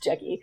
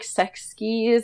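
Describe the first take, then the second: First: The name starts with a J sound. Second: The name starts with an S sound. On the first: This is how it is said in Korean. The speaker calls it right. "they pronounce it in Korean" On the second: This is how the spelling reads in English. The speaker calls it wrong.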